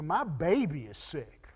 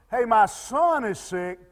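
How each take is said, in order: First: Low, soft anxious parent; hushed, heartfelt plea; tender pleading. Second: Said in the usual way. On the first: Retold or imitated. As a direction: lower your voice, it's your baby who is sick. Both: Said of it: "you know the difference in that statement".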